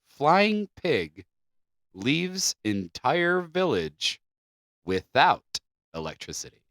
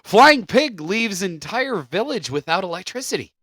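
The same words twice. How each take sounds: First: It is read slowly. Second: It is read at normal speed.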